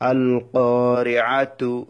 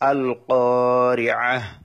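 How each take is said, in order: First: The word ends with a full t syllable. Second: The word ends with a final h sound. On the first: Reading continues into the next verse. "যখন ওয়াকফ করব না পরের বায়াতের সাথে মিলিয়ে পড়ব তখন আল কারিআতু" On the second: Reading stops at this word. "ওয়াকফ করার কারণে তাটা হা হয়ে গেল"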